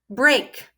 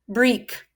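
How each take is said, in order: First: The vowel is a long A sound. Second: The vowel is a long E sound. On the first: The speaker calls it right. "Maybe I'll try the long sound of A" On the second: The speaker calls it wrong. "I'll try the long E sound first"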